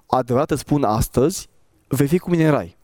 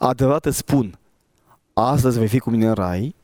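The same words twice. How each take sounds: First: The pause falls after the word 'astăzi'. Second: The pause falls before the word 'astăzi'. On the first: Today is when the promise is spoken. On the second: The promised event happens that same day. "Sunt două opțiuni"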